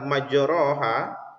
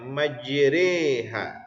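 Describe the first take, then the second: First: The vowel after the r is an open a. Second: The vowel after the r leans toward e. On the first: This is the word's original form. "asal katanya adalah majroha" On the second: This is the imalah reading. "barisnya menjadi baris ke bawah ya"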